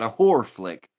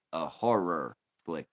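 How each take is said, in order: First: "horror" squashed into one syllable, "whore". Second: "horror" fully sounded as "hor-rer"; HORROR in two syllables. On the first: Correcting a misheard word, "horror" said as "whore". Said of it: "Not a horror flick, a horror flick". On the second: Correcting a misheard word, "horror" said clearly as "hor-rer". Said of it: "Not a horror flick". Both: Shown as a demonstration.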